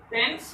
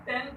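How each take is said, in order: First: "टेंस" closed on an s sound; plain s ending. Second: "टेंथ" closed on th in place of s; th ending. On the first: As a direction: end "टेंस" in s, with no th. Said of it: "ये टेंस होता है". ("टेंस" के अंत में स की ध्वनि) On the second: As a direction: lift "टेंथ" and end it on th. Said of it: "टीएच लग जाता है". ("टेंथ" के अंत में थ की ध्वनि) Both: Shown as a demonstration.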